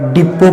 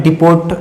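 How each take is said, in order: First: "डिपो" ending on an open o; "डिपो" with the final t dropped; silent t. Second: "डिपोट" closing on a hard t; "डिपोट" with the final t sounded; wrong pronunciation. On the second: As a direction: say "डिपोट" as di-POT. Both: Shown as a demonstration. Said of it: "डिपोट नहीं पढ़ते हैं".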